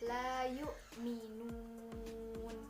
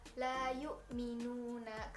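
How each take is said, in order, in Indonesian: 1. Kata ini berakhir pada konsonan. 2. Kata ini diakhiri dengan vokal.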